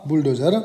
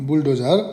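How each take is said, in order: The two takes are said the same way.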